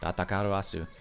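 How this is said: The name is said with Japanese-style pronunciation.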